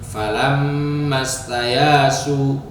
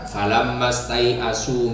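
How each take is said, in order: First: No glottal stop; a long a sound replaces it. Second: A glottal stop is heard in the second word. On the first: "hamzahnya dijadikan alif, yaknya di fathah dan tidak memakai hamzah" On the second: "selain Al-Bazzi itu membacanya dengan hamzah"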